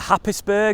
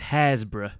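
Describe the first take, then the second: First: The name sounds like 'Happis-burgh', with a p. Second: The name sounds like 'Hairs-borough', with no p. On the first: The speaker calls it wrong. "apologise in advance for the mispronunciation coming up" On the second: The speaker calls it right. "The correct way of saying it is Hairsborough"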